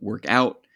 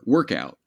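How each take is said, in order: First: The stress falls on the second part, out. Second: The stress falls on the first part, work. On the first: It is a verb phrase written as two words. "if that emphasis is on the second part" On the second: It is a noun written as one word. "that's on the first syllable"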